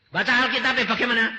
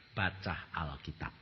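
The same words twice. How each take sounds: First: High, loud, fast "Baca Alkitab" as a preaching cry; loud outburst. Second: Low, soft, slow "Baca Alkitab"; God's quiet command. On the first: Acted. ("Baca Alkitab" keras, tinggi dan cepat) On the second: Retold or imitated. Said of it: "Tuhan berkata". ("Baca Alkitab" pelan, lirih dan rendah)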